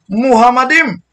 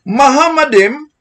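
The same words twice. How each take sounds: First: The word is said like the name Muhammad. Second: The word is read as the Hebrew text has it. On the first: The speaker calls it wrong. "pero ginawa niyang Muhammadim" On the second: The speaker calls it right.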